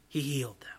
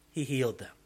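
First: Hushed unvoiced whisper of the refrain. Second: Said in the usual way. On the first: Shown as a demonstration. Preacher repeats the line to his congregation in a whisper. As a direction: breathe it out in a whisper.

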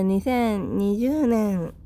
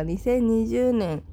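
First: Cracking into falsetto on 二千二十年. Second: Said in the usual way. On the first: Real, not acted. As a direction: voice flipping up on the year. (声が裏返る) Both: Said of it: "声が裏返ってしまいましたが".

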